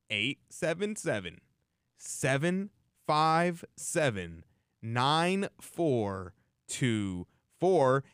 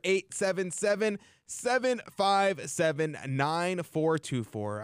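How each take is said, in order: First: The number is said slowly. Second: The number is said quickly.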